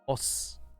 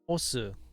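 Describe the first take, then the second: First: The final u sound is dropped. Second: The final u sound is pronounced. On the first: A slightly masculine greeting. "not say the u" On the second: The verb to push. "you do need to put say the u"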